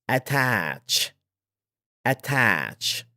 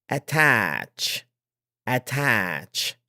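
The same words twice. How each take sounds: Both takes have the same delivery.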